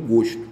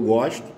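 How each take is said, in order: First: The stressed o vowel is closed. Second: The stressed o vowel is open. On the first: It is the noun, taste or liking. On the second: It is the verb, I like.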